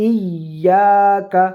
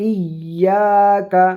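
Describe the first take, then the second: Both takes have the same delivery.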